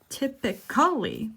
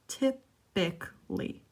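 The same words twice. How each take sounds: First: The word is said with four syllables. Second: The word is said with three syllables. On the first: "Typically would be four syllables" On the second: "they only said typically, skipping the A"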